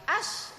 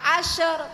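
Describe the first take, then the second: First: The final consonant stops plainly without any echo. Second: The final consonant bounces with an added vowel. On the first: The speaker calls it right. "tapi ash" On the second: The speaker calls it wrong. "bukan asher, bukan gitu"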